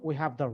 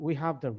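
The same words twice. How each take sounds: The two takes are said the same way.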